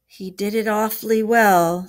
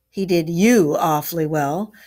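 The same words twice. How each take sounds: First: Mildly crestfallen, slightly raised voice. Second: Louder, heated retort. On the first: Rat admits Toad fooled him, mildly crestfallen. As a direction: admit it with a touch of dejection. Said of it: "said the crestfallen Rat". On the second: Badger hotly rebukes Rat for being fooled, heated. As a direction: fire it back hotly. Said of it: "replied the Badger hotly". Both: A narrator's reading.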